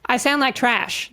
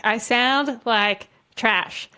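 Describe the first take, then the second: First: Said in the usual way. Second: Said very slowly, each word weighed; slow, deliberate. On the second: Shown as a demonstration. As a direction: drag it out word by word. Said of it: "That's what I sound like".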